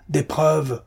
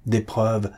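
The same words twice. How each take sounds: First: Cried out. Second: Said in the usual way. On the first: A narrator's reading. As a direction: repeat the demand, now shouting. («des preuves!» crié plus haut et plus fort) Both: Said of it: "cria-t-il".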